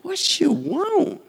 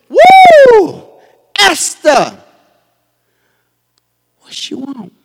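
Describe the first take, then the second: First: High, slow, drawn-out "What you want?"; smitten king. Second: A hint of a smitten king, high whoop then a casual ask; king's delighted call. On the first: Shown as a demonstration. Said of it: "he said it like that". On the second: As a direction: call out to her like a charmed king. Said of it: "I bet you he said it like that".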